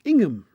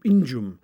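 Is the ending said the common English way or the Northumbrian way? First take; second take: common English; Northumbrian. First: The ending sounds like the end of Birmingham. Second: The ending has the local Northumbrian pronunciation. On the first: This is how the ending is said across the country. "usually pronounced Ingham, like in Birmingham" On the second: This is how the ending is said only in Northumberland. "Only in Northumberland does the pronunciation change"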